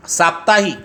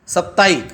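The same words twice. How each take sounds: First: साप्ताहिक with a long open "saa" and a full "hik" ending; correct pronunciation. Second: साप्ताहिक clipped to a short "sap-taik"; wrong pronunciation. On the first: Teacher models the right saying of साप्ताहिक for students. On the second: Teacher models the wrong saying of साप्ताहिक for students. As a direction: rush साप्ताहिक with a short first vowel. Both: Shown as a demonstration. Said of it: "तो साप्ताहिक कहेंगे क्या?".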